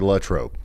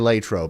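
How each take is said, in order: First: The name is said the way outsiders say it. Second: The name is said the way locals say it. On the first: The speaker is not from the town. "If you're not from Latrobe, you say Latrobe" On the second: The speaker is from the town. "If you're from Latrobe, you say Latrobe"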